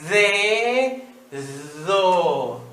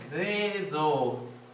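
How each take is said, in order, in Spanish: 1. Se dice despacio, sílaba por sílaba. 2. Se dice de corrido, como una sola palabra.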